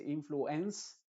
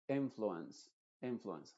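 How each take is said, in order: First: "influence" como "influ-ENS", con E clara; E plena. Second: "influence" con el final "ence" como "uns"; schwa. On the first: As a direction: di "influence" lento, marcando el "ens" final. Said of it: "Uno no dice influence". ("influence" sin reducir la E) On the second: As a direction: di "influence" con última sílaba reducida. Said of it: "En palabras que terminan en ense". ("influence" con schwa final) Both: Shown as a demonstration.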